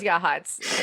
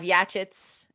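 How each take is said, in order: First: The name is said with an 'h' sound. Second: The name is said with a 'ch' sound. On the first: "which is Yahats" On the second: "we have Yachits out here"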